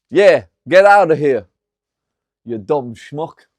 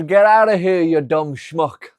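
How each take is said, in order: First: Put-on loud Italian mobster accent, slowing on dumb schmuck. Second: Put-on Italian accent. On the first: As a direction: bark it out in a thick Italian accent, then drag the insult. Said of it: "What do you think of my Italian accent?". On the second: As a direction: shout it in the Italian gangster voice. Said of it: "I says".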